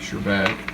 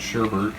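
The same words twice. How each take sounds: First: The second syllable has no r sound. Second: The second syllable has an r sound. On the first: The speaker calls it right. "I always say it wrong" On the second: The speaker calls it wrong. "Not sherbet"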